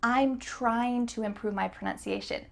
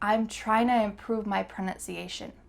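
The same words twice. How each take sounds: First: "Trying to" is said fully and clearly. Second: "Trying to" is reduced to "tryna". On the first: "Is this the fastest way to say this sentence? Nope" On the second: "You can say"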